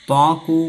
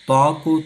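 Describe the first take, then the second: The two takes are said the same way.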